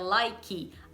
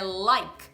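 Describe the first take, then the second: First: An extra 'ee' vowel is added after the k. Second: The word ends cleanly on the k sound. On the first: The speaker calls it wrong. "não é like" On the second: The speaker calls it right. "É like"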